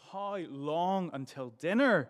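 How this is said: The question is asked in an impatient, complaining tone. The asker has waited long and wants food now. "I've been waiting for ages. I'm hungry. I want it now"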